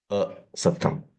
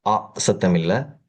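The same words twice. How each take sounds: First: அ kept short, not stretched into ஆ; short a sound. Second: ஆ drawn out slowly to contrast with அ; long aa contrasted. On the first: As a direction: say அ short and crisp. (அ ஒலியை குறுகலாக உச்சரித்தல்) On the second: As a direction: stretch ஆ to show the wrong sound. (ஆ நீட்டி ஒப்பிட்டு உச்சரித்தல்) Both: Shown as a demonstration.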